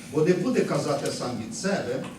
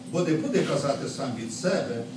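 No difference in how they are said.

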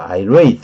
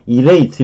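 First: The stress is on the second syllable. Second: The stress is on the first syllable. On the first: The speaker calls it right. "irate 이렇게 하는 거예요" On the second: The speaker calls it wrong. "irate 이렇게 발음하면 안 돼요"

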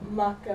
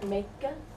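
First: The first vowel is a low open ah. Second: The first vowel is a higher eh. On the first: This is the older form of the word. "maka would become more like meka" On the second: This is the newer form of the word. "maka would become more like meka"

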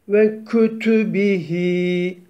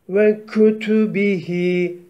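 No difference in how they are said.

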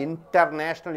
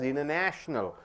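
First: The t after the n is clearly pronounced. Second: The t after the n is not pronounced. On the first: The speaker calls it wrong. "You don't say international" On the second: The speaker calls it right. "T is not at all pronounced"

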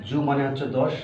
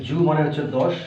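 The two takes are said the same way.

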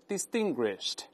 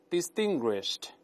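The two takes are said the same way.

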